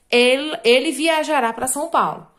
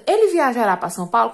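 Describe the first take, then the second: First: "Ele viajará pra São Paulo" as a plain statement with falling end. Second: "Ele viajará pra São Paulo?" rising at the end as a question; teacher modelling the question form with a rising end; question intonation. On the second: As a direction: lift the tune on "Paulo" to ask it. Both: Shown as a demonstration. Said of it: "Aí é uma pergunta".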